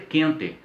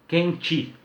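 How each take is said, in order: First: The final vowel is a clear e sound. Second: The final vowel is an i sound. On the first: This is how it is said in the south. "fidelidade, inclusive no que diz respeito às vogais" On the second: This is how it is said in Minas. "com i"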